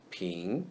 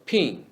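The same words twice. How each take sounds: First: Ping with a rising second tone; Mandarin second tone. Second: Ping said with a fall, as in plain English; Mandarin second tone. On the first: Teacher modelling the rising tone on ping. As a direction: lift ping upward, softly. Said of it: "in the second tone". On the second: Teacher saying ping before the tone drill. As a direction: say ping the ordinary way first. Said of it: "Ping is the word pin in the second tone". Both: Shown as a demonstration.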